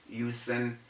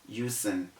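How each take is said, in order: No difference in how they are said.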